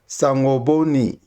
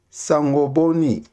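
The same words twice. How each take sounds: The two takes are said the same way.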